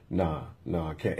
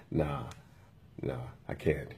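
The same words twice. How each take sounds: First: Said in the usual way. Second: Low, soft refusal through a little smile; smirking refusal. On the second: Retold or imitated. Imitating the employee refusing the restroom, with a little smile. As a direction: imitate someone smugly turning you down, low and quiet. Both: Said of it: "And took a little smile".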